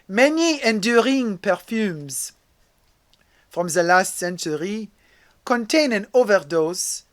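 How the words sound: It is read in a French accent.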